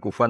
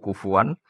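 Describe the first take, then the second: First: No consonant comes before the final vowel. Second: A w sound comes in the middle. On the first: "bukan kufan" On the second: "kita baca"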